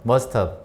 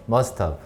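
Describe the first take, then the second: The two takes are said the same way.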